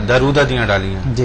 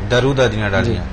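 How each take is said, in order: Both takes have the same delivery.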